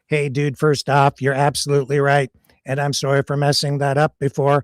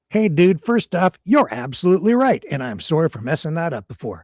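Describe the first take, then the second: First: It is said in a robotic computer voice. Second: It is said in a natural human voice. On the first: The speaker calls it right. "I have to be Grok's voice for him" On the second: The speaker calls it wrong. "I'm screwing up computer voice"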